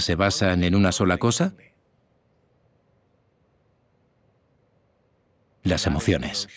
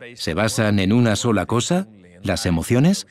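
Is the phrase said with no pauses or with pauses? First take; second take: pauses; no pauses. First: It is said with pauses between the phrases. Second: It is said straight through without any pauses. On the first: The speaker calls it right. "Añadamos pausas" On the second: The speaker calls it wrong. "Primero lo diré sin pausas"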